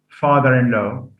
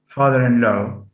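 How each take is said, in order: Both takes have the same delivery.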